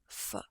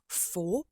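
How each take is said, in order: First: The word has a weak schwa vowel. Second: The word has a full, clear vowel. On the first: "they would say f" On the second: "Instead of for"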